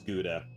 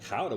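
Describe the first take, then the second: First: It is said the American way, like gooda. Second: It is said the Dutch way, like howda.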